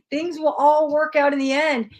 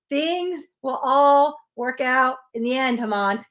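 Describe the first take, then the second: First: Said in the usual way. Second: Said again slowly so each word lands; slow it down and drive it home; slow emphatic repeat. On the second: Real, not acted. Reader to Hemant, repeating the reassurance slowly and deliberately. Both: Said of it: "Let me say that again".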